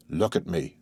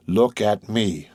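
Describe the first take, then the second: First: Said in the usual way. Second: Drawn out, every word weighed; slow, persuasive. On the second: A narrator's reading. Monte Cristo urging grieving Morrel, slow and persuasive. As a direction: hold his gaze and slow right down. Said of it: "with that expression which sometimes made him so eloquent and persuasive".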